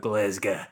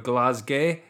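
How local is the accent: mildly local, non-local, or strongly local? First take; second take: strongly local; mildly local. First: It is said in a strong Glaswegian accent. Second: It is said in a mild Glaswegian accent. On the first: The speaker is truly from the city. "if you are proper from around here, you go" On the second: The speaker is from near the city. "If you're sort of from the area, you go"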